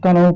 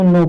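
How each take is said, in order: First: A K sound is spoken before the N. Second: The word begins directly with the N sound. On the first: The speaker calls it wrong. "इसको बहुत से लोग कनौ पढ़ते हैं, इसको कनौ नहीं" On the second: The speaker calls it right. "इसको नो पढ़ेंगे"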